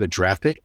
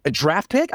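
First: Said in the usual way. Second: Rising, disbelieving question; retold disbelief, pitch climbing; incredulous echo. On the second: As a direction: repeat it back like you can't believe it.

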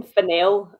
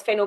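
First: Fennell with the stress on NELL; second-syllable stress. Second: Fennel with the stress on FEN; first-syllable stress. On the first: Retold or imitated. Co-host imitating the awards presenters, Fennell stressed on the second syllable. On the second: Shown as a demonstration. Co-host giving the name she assumed, Fennel stressed on the first syllable. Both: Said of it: "they all kept saying Fennell".

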